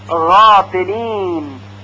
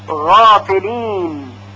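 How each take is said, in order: No difference in how they are said.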